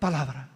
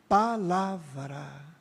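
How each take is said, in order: First: The word is said quickly and carelessly. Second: The word is said slowly and carefully. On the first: The speaker calls it wrong. "não é palavra" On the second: The speaker calls it right. "Falar devagar, respeitando a palavra"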